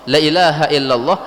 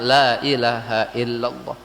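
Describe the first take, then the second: First: The first vowel 'la' is short. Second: The first vowel 'la' is drawn out long. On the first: It sounds like an emphatic affirmation rather than a negation. The speaker calls it wrong. "la-nya pendek" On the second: It means there is no god. The speaker calls it right. "Maka la-nya dibaca panjang"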